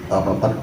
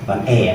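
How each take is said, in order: First: The vowel is a weak, central schwa sound. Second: The vowel is a clear, open e sound. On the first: The speaker calls it right. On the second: The speaker calls it wrong. "bukan e ya"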